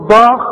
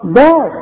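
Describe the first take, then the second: First: ضاخ with a thick, emphatic D and dark A; heavy wrong dal. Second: داخ with a thin, light D; light dal. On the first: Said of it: "تقول ضاخ". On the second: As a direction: keep the D of داخ unemphatic, as in دواء. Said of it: "الدال دواء". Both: Shown as a demonstration.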